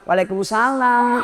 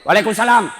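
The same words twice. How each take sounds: First: It is said in a soft, sweet voice. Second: It is said in a firm, curt voice.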